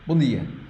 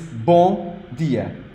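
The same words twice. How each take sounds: First: The syllables blur together into almost two. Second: Each syllable is said clearly and separately. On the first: "as like almost just two syllables" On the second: "But it's bom dia"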